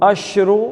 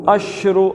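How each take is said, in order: No difference in how they are said.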